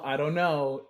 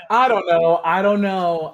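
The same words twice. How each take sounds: First: Said in the usual way. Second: Loud, sighing "I don't know"; exasperated sigh. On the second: Real, not acted.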